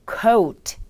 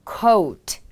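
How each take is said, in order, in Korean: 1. 영어 억양으로 발음됩니다. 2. 영어 억양으로 발음됩니다.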